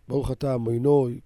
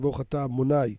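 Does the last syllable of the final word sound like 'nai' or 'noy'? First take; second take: noy; nai. First: It is said in an Ashkenazi accent, ending 'noy'. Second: It is said in a Sephardi accent, ending 'nai'. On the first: "אשכנזים, יש להם את המבטא שלהם" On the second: "כך היו נוהגים להגיד מבטא שלנו הספרדים"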